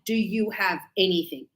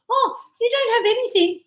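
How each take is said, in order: First: "Do you have anything?" lower and softer; real question. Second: "Oh, you don't have anything" with a high "Oh" and a falling end; sure, knowing confirmation; statement tune, falling on "anything"; confirming statement. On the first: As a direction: ask it as a plain question. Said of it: "That is a question". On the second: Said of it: "So I'm just confirming". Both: Shown as a demonstration.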